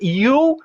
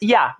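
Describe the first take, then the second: First: The vowel is a full, rounded oo sound. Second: The vowel is reduced to a short uh sound. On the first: "ao invés de dizer you" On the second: "Esse a é muito comum em inglês utilizado pelos nativos"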